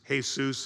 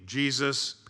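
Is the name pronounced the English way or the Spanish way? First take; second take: Spanish; English. First: The name is pronounced the Spanish way. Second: The name is pronounced the English way.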